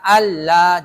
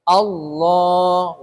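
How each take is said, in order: First: The l is light, with the tongue back lowered. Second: The l is heavy, with the tongue back raised. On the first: The speaker calls it wrong. "Jangan baca Allah, jangan begitu" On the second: The speaker calls it right. "Tebal itu maksudnya pangkal lidahnya naik ketika mengucapkan lafaz Allah"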